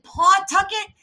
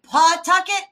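First: The name is said the outsider way. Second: The name is said the local way. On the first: The speaker calls it wrong. "Everybody wants my head on a pike because I said Pawtucket" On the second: The speaker calls it right. "Instead of Pawtucket, like, yes, correct"

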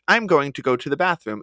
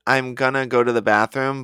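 First: It is said formally, with full going to. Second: It is said casually, with reduced gonna.

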